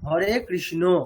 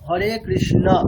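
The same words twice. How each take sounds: First: The final vowel is a rounded 'o' sound. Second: The final vowel is an open 'a' sound. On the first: The speaker calls it wrong. "কিন্তু আমরা করছি কি" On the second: The speaker calls it right. "আসলে আছে অ"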